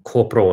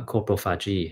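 First: Copro split off and said slowly with a rise; word part on its own. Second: Coprophagy said very slowly, syllable by syllable; coprophagy drawn out slowly as one word; careful spelled-out term. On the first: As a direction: say copro slowly as a separate piece. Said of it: "copro เนี่ยแปลว่าขี้นะครับ". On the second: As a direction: stretch out every sound of coprophagy. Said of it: "copro เนี่ยแปลว่าขี้นะครับ phagy แปลว่ากินนะครับ". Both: Shown as a demonstration.

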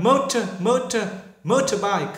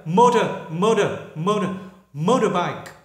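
First: British "motor" with a crisp t; British accent. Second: American "motor" with the t flapped to d; American accent. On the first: Teacher repeats the British accent for students. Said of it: "người Anh". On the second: Teacher repeats the American accent for students. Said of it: "Người Mỹ là motor". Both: Shown as a demonstration.

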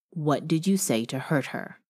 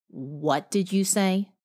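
First: Said in the usual way. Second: "What did you say?" slow, with weight on "you"; a slow, insistent "you" in "What did you say?"; pressing on you. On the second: Acted. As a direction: drag it out, leaning on "you" like a demand. Repeating the question, slower and pressed.

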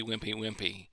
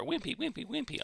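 First: Said in the usual way. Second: High, soft, timid squeak; mocking a feeble preacher with a high little voice; mock wimpy voice. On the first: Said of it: "coming as wimpy". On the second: Shown as a demonstration. Preacher mocks timid rebuke, high and meek. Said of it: "I'll put it that way".

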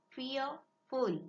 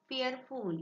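First: "fearful" split in two, fear - ful; syllable by syllable. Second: Said in the usual way. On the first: Shown as a demonstration. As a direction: break "fearful" after fear, with a short gap before ful. ("fearful" हा शब्द fear - ful असा दोन भागांत तोडून) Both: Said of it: "two syllables".

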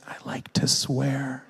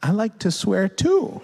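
First: Imitating a crying child, slow and understated; mock tearful confession. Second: Put-on higher, lilting admission to a child; sweetly confess, rising at the end; parent confiding. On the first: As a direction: drag it out like a sad little confession. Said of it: "he cries, and he goes". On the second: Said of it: "And I'm like".

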